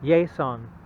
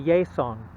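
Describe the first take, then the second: First: It is said Spanish-style with a Y sound. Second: It is said Spanish-style with a Y sound.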